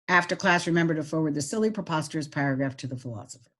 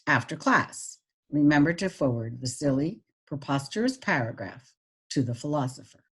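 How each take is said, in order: First: It is read flat, without pauses or pitch changes. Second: It is read with pauses but little pitch change. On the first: "without any expression" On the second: "with the pauses"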